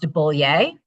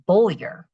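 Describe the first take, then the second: First: The name is said without an R sound. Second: The name is said with an R sound. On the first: This is how other regions say it. "In different parts of the state, it's pronounced" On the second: This is how the speaker's region says it. "In my part of the state, it's pronounced ... where's the R you say?"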